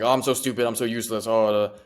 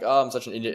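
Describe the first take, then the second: First: It sounds self-pitying and demeaning. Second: It sounds lighthearted and self-assured.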